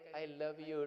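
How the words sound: It is said warmly, with a smile. The words sound sincere and affectionate. The speaker calls it right. "थोड़ा सा smile देके"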